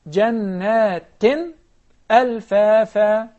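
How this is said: A pause breaks between the two words. The speaker calls it wrong. "I'm sorry I stopped"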